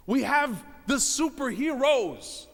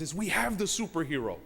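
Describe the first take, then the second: First: We have the superheroes, slow, with "have" hit hard; slow emphatic repeat. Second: Said in the usual way. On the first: Real, not acted. Preacher repeating to the brothers with slow, heavy stress on "have". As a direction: lean on "have" and stretch the whole phrase.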